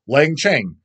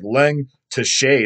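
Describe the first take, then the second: First: The second part sounds like 'cheng'. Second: The second part sounds like 'teshe'. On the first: This is how the name is actually pronounced. The speaker calls it right. "You put the prona- correct pronunciation" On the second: This is how the name looks when written. The speaker calls it wrong. "It looks like Leng Teshe is what it looks like"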